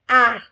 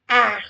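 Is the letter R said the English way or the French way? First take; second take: French; French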